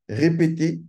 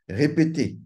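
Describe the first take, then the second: No difference in how they are said.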